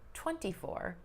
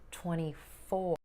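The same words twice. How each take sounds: First: The stress falls on twenty. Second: The stress falls on four.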